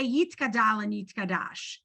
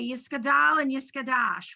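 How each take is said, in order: First: The middle consonant is pronounced as a t. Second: The middle consonant is pronounced as an s. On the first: This is how modern Israeli Hebrew says it. "We say Yitkadal and Yitkadash" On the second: "they say Yiskadal and Yiskadash"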